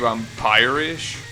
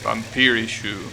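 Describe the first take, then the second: First: It is said the English way, ending in sh. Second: It is said the Japanese way, ending in shu. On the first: "If you actually want to pronounce it in English?" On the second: "It's literally pronounced vampirish in katakana"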